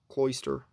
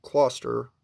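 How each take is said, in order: First: "Cloyster" with a clear "oy", like CLOY-ster; second pronunciation attempt. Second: "Cloyster" with a plain "aw" vowel, like CLAW-ster; unsure pronunciation attempt. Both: Real, not acted. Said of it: "something like that".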